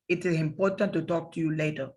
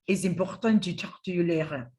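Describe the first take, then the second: First: It is said with a Spanish accent, sound central. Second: It is said with a French accent, sound back.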